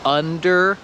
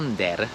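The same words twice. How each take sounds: First: The first vowel is open, like in 'up'. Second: The first vowel is said in a Polish-style way. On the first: The speaker calls it right. "Tak jak under" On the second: The speaker calls it wrong. "to nie jest under"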